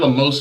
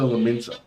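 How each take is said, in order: First: It ends -mosa with no n sound. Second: It ends -minsa with an n sound. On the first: The speaker calls it wrong. "I said that wrong because not Limosa" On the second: The speaker calls it right. "it's like Limsa Liminsa"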